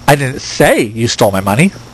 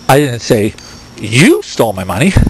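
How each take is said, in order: First: The stress is on "say". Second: The stress is on "you".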